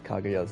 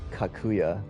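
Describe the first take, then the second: First: The middle consonant is a voiced G sound. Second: The middle consonant is a voiceless K sound. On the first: The speaker calls it right. "pronounces Kaguya's name correctly" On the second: The speaker calls it wrong. "Everyone else says Kakuya"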